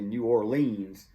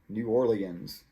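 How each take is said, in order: First: The stress falls on the syllable leans. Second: The stress falls on the syllable or. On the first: "some people put it on leans" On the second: "I usually say it like that. ... I put the emphasis on or"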